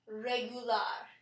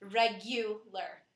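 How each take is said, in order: First: Slow regular, stress on the final AR, reh-goo-LAR; slow Spanish regular, rolled ending. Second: Slow regular, stress on the U; slow, careful English regular. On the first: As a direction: land hard on the last syllable of regular. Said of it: "we stress the A R at the end". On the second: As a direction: draw out regular, leaning on the middle U. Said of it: "the U is stressed". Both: Shown as a demonstration.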